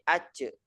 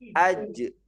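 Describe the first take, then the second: First: The middle consonant sounds like a ch. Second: The middle consonant sounds like a j. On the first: The speaker calls it wrong. "jangan sampai ada eh, suara pantulannya itu berbunyi c" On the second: The speaker calls it right. "tengah lidah itu betul-betul harus menekan di langit-langit"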